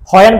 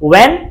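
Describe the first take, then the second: First: The word begins with an audible h sound. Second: The word begins with no h sound. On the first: The speaker calls it wrong. "when বলা যাবে না" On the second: The speaker calls it right. "আমরা বলবো when"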